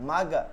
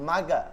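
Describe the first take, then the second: First: A vowel sound follows the final consonant. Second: The same.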